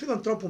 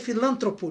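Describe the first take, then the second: First: The stress falls on the syllable tro. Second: The stress falls on the syllable lan. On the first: The speaker calls it right. "o nome é filantropo mesmo" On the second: The speaker calls it wrong. "às vezes ah, é filântropo"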